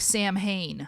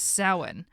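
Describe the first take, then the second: First: It is said as the English words Sam and Hain. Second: It is said with the Irish pronunciation. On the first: The speaker calls it wrong. "everybody would call the movie Sam Hain, like the band Sam Hain" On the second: The speaker calls it right. "it's not pronounced that way. It is Samhain"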